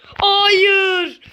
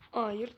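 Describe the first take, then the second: First: Long, high, loud wail on Hayır; drawn-out high loud Hayır; anguished no. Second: Disappointed no. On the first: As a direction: cry out Hayır in despair. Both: Real, not acted. Losing the round.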